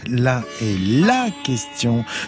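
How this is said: The stress falls on the article before question. There is only one question worth asking. "Si j'appuie sur le second « là »"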